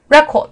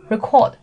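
First: REC in record high and loud; stress on first syllable. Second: Record as re-CORD, the verb; short first syllable, stressed CORD in record; stress on second syllable. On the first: Teacher demonstrating the noun, record stressed hard at the front. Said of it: "重音在前面". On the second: Teacher demonstrating the verb, record stressed at the end. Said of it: "重音在后面". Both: Shown as a demonstration.

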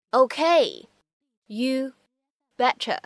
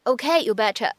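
First: Okay, you and betcha each said slowly with pauses between; slowed for learners. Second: Said in the usual way. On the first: Shown as a demonstration. Teacher to students, slow word-by-word model. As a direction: break it into slow single words.

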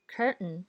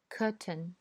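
First: American curtain with the r; curtain with r-colored vowel, American style; American English. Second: British curtain, no r sound; curtain with the r dropped, British style; British English. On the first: Teacher reads curtain in an American accent. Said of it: "再读美音". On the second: Teacher reads curtain in a British accent. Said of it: "我先读英音". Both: Shown as a demonstration.

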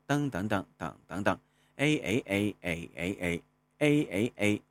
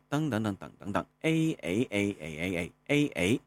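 First: A chanted to the mid third tone melody, ending rising. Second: A chanted to the rising second tone melody, ending falling. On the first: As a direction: chant the tone-three tune on A. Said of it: "第三声 口诀旋律". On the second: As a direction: chant the tone-two tune on A. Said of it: "第二声 通过旋律和口诀来找一下". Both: Shown as a demonstration.

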